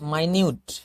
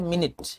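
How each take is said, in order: First: The first syllable sounds like 'my'. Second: The first syllable sounds like 'min'. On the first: It means very small. "माइन्यूट का मतलब क्या होता है? छोटा" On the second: It means sixty seconds of time. "ये इसको बोले थे मिनट, समय का इकाई"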